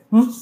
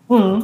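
First: Short "mm" grunt standing in for yes; pujido afirmativo. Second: Loud, high "mm" grunt meaning no; pujido de negación. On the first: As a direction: hum a quick yes. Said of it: "en vez de que te digan". (pujido breve de sí) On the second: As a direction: hum a forceful no. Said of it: "alguna forma de negarlo". (pujido fuerte y agudo de no) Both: Shown as a demonstration.

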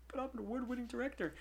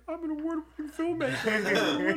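First: Softer, pleading "award-winning director"; a weak appeal to the store manager; small, half-hearted insistence; deflated protest. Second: Slow, high, grandly mock-proud; hammed-up pompous boast; mock self-importance. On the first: Retold or imitated. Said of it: "And I'm like". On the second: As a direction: puff himself up as the great filmmaker while stuck at the register.

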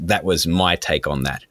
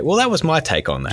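First: Said in the usual way. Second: Pitched well up with a rising end; tutorial sign-off voice. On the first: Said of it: "I always say at the end of my tutorials". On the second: Retold or imitated. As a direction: say it like a video outro line. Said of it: "I just say".

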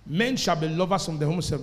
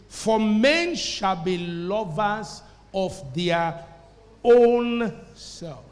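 First: Said in the usual way. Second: Slow reading that builds to a drawn-out "own"; stress on OWN. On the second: Shown as a demonstration. Preacher reads the verse to the church, heavy emphasis on "own". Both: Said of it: "making the emphasis key".

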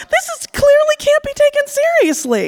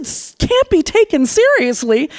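First: Very high, put-on scoffing voice; dismissive date voice. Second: Higher, incredulous repeat of his words; indignant echo. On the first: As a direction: brush her off in a squeaky mock tone. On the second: Retold or imitated. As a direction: throw his phrase back at him, outraged. She throws his words back.

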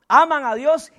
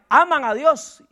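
The two takes are said the same way.

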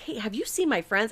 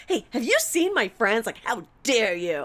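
First: Said in the usual way. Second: High, loud mock-outraged question; hammed-up drunken accusation, pitched up; accusing. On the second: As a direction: demand it like they are guilty. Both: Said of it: "I was probably maybe even being like".

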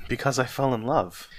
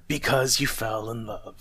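First: Put-on higher, lighter young man's answer; open, lifted reply; earnest. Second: Mildly growled mocking echo; a touch of a curmudgeon's growl. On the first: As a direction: answer simply and sincerely. Nephew answers, before Scrooge mimics. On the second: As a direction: throw it back with grumpy scorn. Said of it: "growled Scrooge".

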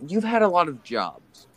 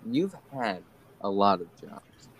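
First: High slow take. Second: Said in the usual way. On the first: Shown as a demonstration.

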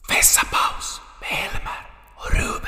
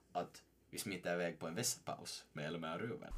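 First: Breathy whispered jingle title; a secretive announcer's whisper. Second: Said in the usual way. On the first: Acted. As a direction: whisper the segment name like a show sting.

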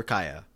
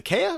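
First: "Kaya" as KY-uh, first syllable like "eye"; KAI-a pronunciation. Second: "Kaya" as KAY-uh, first syllable like "day"; KAY-a pronunciation. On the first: Host checking the name, "Kaya" said KY-uh. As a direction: say "Kaya" with a long I, KY-uh. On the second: Host unsure of the name, "Kaya" said KAY-uh. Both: Shown as a demonstration. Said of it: "my brain really has a hard time".

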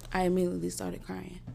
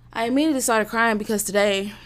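First: Said in the usual way. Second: A touch louder, emotion breaking through; fighting tears; choked-up repeat. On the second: Real, not acted.

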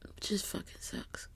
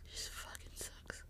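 First: Slow unvoiced whisper; tearful whisper. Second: Slow, barely audible whisper; fading whisper. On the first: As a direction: drag it out in a whisper. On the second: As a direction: let it die away, softer. Repeats fading away. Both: Real, not acted.

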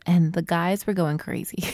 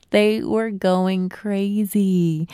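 First: Said in the usual way. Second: "They were going crazy" drawn out slowly, leaning on "They"; slow emphatic repeat. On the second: Shown as a demonstration. Repeating to listeners how the guys reacted, slow and emphatic. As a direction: stretch every word, stress "They".

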